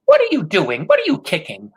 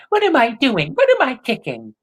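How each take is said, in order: First: High, loud scolding question; grandmother crying out. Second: High mocking echo of grandma's scolding; mocking imitation. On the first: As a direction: scold him, stress on what. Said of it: "grandmother cried". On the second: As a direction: throw her words back at her, sneering. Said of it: "He imitated her voice in a mocking way". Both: A narrator's reading.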